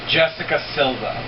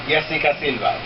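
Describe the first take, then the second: First: The name is said with English pronunciation. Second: The name is said with Spanish pronunciation. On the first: "For those of us who don't" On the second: "So for those of us who speak Spanish"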